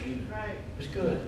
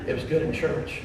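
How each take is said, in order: First: "It was good" said slow and much softer, trailing off; hushed, drawn-out "It was good"; slow soft fade. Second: Said in the usual way. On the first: Retold or imitated. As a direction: let "good" fade away slowly. Final fading repetition.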